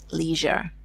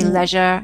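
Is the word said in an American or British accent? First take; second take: American; British. First: It is said in an American accent. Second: It is said in a British accent. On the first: "she says leisure" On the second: "the difference of pronunciation between the US and the UK. I say leisure"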